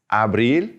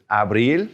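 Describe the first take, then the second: No difference in how they are said.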